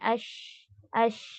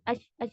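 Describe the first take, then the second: First: The sh sound is drawn out and spreading. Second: The sh sound is cut off abruptly. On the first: The speaker calls it right. "आपको spread out करना है" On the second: The speaker calls it wrong. "ऐसे नहीं करना"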